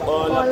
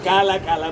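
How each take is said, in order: First: The vowel is heavy and rounded, like 'qo'. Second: The vowel is light and open, like 'ka'. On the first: The speaker calls it right. "মোটা করে ইস্তিলা" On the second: The speaker calls it wrong. "নাকি কালা কালা বলতেন"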